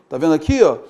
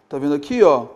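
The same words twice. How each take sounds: No difference in how they are said.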